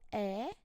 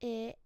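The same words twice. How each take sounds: First: The vowel is open. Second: The vowel is closed. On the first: "the open"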